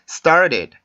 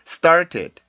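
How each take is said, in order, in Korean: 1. 가운데 t는 빠른 플랩 소리입니다. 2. 가운데 t는 분명한 t 소리입니다. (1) "원어민들이 발음하는 소리를 잘 들어보면 이런 식으로 발음을 합니다" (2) "이렇게도 발음을 하는데"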